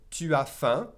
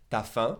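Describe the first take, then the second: First: "tu as" as two separate syllables; full "tu as". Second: "T'as" as one syllable, ta; contracted "T'as". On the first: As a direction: keep the u in "tu as faim". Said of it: "say ta instead of tu as". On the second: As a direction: drop the u in "T'as faim", fast spoken French. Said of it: "they'll drop the U and say ta". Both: Shown as a demonstration.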